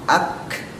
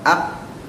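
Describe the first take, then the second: First: The final k releases an audible hiss of air. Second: The final k has no audible air release. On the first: The speaker calls it right. "tapi ak" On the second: The speaker calls it wrong. "Jadi bukan ak"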